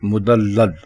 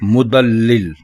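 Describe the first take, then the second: First: The word ends with the syllable 'lal'. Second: The word ends with the syllable 'lil'. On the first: The speaker calls it right. "दुरुस्त लफ्ज है मुदल्लल" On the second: The speaker calls it wrong. "ये गलत है"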